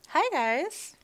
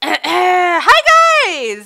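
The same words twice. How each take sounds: First: It is said flatly, with little energy. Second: It is said enthusiastically, with lots of energy.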